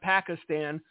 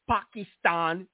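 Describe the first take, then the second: First: It is said in a plain, ordinary American way. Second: It is said in an affected, foreign-sounding way. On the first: "instead of Pakistan" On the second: "Barack Hussein Obama with a Pakistan"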